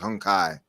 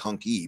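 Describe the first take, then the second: First: The second syllable sounds like 'kye'. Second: The second syllable sounds like 'key'. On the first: The speaker calls it right. "but it's Hunkai" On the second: The speaker calls it wrong. "It looks like it says Hunky"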